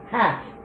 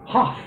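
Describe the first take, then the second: First: It is said with a modern English vowel. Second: It is said with a German-like vowel. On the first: This is how English speakers say it today. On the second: This is how English speakers said it around 1410.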